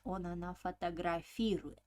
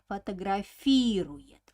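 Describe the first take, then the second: First: Said in the usual way. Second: Фотографирует with a long, loud ФИ; stress on ФИ in Фотографирует. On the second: Shown as a demonstration. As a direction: punch and stretch the "фи" in Фотографирует. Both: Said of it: "accent falls on E".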